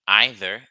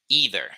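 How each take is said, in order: First: The word is said in a British accent. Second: The word is said in an American accent. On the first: "is a British pronunciation" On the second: "That's the American pronunciation"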